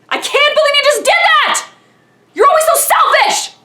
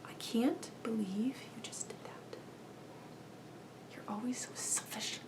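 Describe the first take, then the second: First: The anger is loud and explosive. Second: The anger is quiet and seething through teeth.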